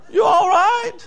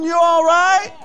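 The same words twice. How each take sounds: First: Higher mock question with a laugh. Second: Mocking high question. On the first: Preacher mocking the crowd's acceptance, laughing. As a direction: laugh through a mocking "You all right?". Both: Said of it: "mocking the world's message".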